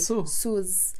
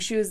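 First: The word begins with an 's' sound. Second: The word begins with an 'sh' sound. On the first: "they'll say sus" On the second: "instead of saying shoes"

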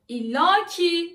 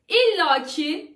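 First: The word ki is said with stress. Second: The word ki is said without stress. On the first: The speaker calls it wrong. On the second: The speaker calls it right.

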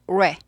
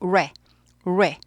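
First: The syllable starts with a quick 'u' glide. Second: The syllable starts plainly without a glide. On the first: The speaker calls it right. "우를 10분의 1 박자로 짧게 하면서" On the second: The speaker calls it wrong. "레가 아니라"

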